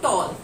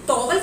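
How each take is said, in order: First: The word has one syllable, like toll. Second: The word has two syllables, tow-el. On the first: The speaker calls it right. "इसका सही उच्चारण क्या होगा? टॉल" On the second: The speaker calls it wrong. "ये बिल्कुल गलत है"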